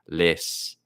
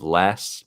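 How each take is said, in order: First: The vowel is a raised 'ih'-like sound. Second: The vowel is an open 'eh' sound. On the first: "maybe he does less" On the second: "Instead of less"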